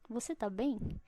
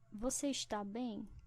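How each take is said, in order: First: The verb is shortened to tá. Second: The verb is said in full as está. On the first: "Na forma curta" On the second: "Isso aqui é uma forma longa"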